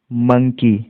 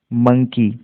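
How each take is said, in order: Both takes have the same delivery.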